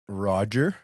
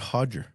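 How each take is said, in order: First: The name begins with an R sound. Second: The name begins with an H sound. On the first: The speaker calls it wrong. "Is it Roger" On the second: The speaker calls it right. "or is it Hodger?"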